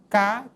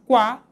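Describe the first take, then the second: First: The syllable is said without a w sound. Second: The syllable is said with a w sound. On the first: The speaker calls it wrong. "e não cá" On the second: The speaker calls it right. "nós dizemos quá"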